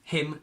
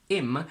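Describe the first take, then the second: First: The word starts with a clear h sound. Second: The word starts with no h sound. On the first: "we pronounce it with a strong form, so we pronounce every single sound" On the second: "in a weak form, we remove the H"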